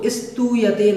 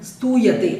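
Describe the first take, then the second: First: An extra i vowel is added to the s. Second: The s is a bare consonant, no vowel. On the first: The speaker calls it wrong. "इसमें ई लगा करके स्तू इस प्रकार से नहीं बोलना है" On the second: The speaker calls it right. "आधा सा का उच्चारण आधे सा जैसा ही होना चाहिए"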